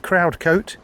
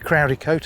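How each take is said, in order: First: The name is said in two syllables. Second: The name is said in three syllables. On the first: "It might be Crowd Coat" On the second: "You may pronounce the E"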